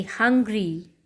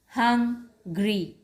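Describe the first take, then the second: First: Said in the usual way. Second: "hungry" split by a pause after hung; syllable break. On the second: Shown as a demonstration. Teacher showing children the syllables, "hungry" broken in two. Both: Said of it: "there's a slight pause after hung".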